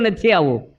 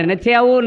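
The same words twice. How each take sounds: First: Said in the usual way. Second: A mild mock yell of refusal. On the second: Grandfather yelling across the yard, mild mock yell. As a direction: call out a stubborn no, half-hearted. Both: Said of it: "ફળિયામાં બૂમો પાડે".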